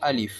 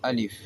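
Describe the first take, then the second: First: The middle vowel is short, ending in f. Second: The middle vowel is short, ending in f.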